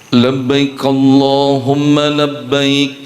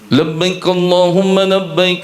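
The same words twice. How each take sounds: First: The phrase is recited at a slower pace. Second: The phrase is recited at a faster pace. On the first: This is how locals usually recite it. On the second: This is how Arabs recite it.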